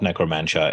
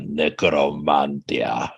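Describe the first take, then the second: First: The name is said with an anglicized pronunciation. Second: The name is said with a Greek pronunciation. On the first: The speaker calls it wrong. "It's not necromantia" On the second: The speaker calls it right. "that's how every single Greek person I've ever I've ever spoken to pronounces it"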